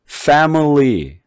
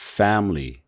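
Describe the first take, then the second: First: The middle vowel is reduced to a weak schwa. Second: The middle vowel is dropped, giving two syllables. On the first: "여기다 중성모음을 집어넣었어요" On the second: "중간에 있는 이 I 소리가 없어진 소리가 돼버려요"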